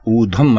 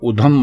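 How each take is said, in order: First: The first vowel is a long oo. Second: The first vowel is a short u. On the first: The speaker calls it right. "ऊ से ऊधम होगा" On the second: The speaker calls it wrong. "ये गलत है"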